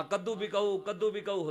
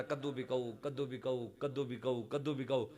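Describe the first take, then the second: First: Raised street cry; louder vendor call. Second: Hushed vendor's call, softer; soft street cry. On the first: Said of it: "آواز اور اونچی ہو گئی". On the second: Zahir hawking pumpkins, soft and quick. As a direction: call it out softly. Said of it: "حضرت ظاہر نے کہا". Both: Retold or imitated.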